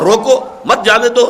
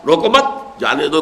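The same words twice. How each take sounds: First: Emphatic higher روکو, break, then مت جانے دو together; pause after روکو. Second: روکو مت joined as one phrase, then جانے دو; pause after مت. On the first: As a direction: punch روکو alone, then run مت into جانے دو. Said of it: "ذرا سے وقفے کا". (روکو پر زور، پھر وقفہ) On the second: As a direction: join روکو to مت and break before جانے دو. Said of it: "روکو مت کو جمع کر دیا". (روکو مت ملا کر، پھر وقفہ) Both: Shown as a demonstration.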